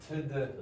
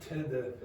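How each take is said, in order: No difference in how they are said.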